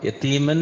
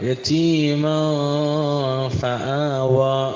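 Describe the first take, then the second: First: The n sound is pronounced clearly. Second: The n sound is hidden and nasalized. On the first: The speaker calls it wrong. "യതീമൻ എന്ന് പറയരുത്, അപ്പോൾ ഇദ്ഹാറാവും" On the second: The speaker calls it right. "ഇഖ്ഫാ ആണ്"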